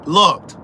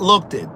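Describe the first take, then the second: First: "Looked" in one firm, louder beat; one-syllable looked. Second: "looked it" split into two syllables; "looked it" with an extra vowel on the end; mispronounced looked. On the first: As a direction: land "Looked" as a single syllable. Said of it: "Looked is one syllable". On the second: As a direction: show the error, look-tid, in "looked it". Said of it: "He also says". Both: Shown as a demonstration.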